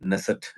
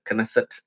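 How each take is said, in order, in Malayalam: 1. Knesset എന്ന വാക്ക് n ശബ്ദത്തിൽ തുടങ്ങുന്നു. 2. Knesset എന്ന വാക്ക് k ശബ്ദത്തിൽ തുടങ്ങുന്നു. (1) "നെസെറ്റ് എന്നോ അങ്ങനെ വേണമെങ്കിലും നിങ്ങൾക്ക് ഉച്ചരിക്കാം" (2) "കെനസെറ്റ് എന്നാണ് അവർ പറയാ"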